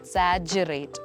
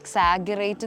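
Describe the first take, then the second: First: The middle consonant is a j sound. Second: The middle consonant is a hard g sound. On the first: The speaker calls it right. "ജ എന്നുള്ള pronunciation ആണ്" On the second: The speaker calls it wrong. "എക്സാഗറേറ്റ് എന്ന് പറയുന്നത് കേട്ടിട്ടുണ്ട്"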